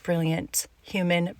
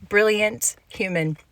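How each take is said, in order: First: Said in the usual way. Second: Brilliant human said again, louder and higher; emphatic repeat. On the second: Real, not acted. Praising a guest she met, brilliant human repeated with emphasis. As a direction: lean hard into brilliant human the second time.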